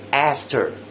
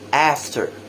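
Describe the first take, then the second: Both takes have the same delivery.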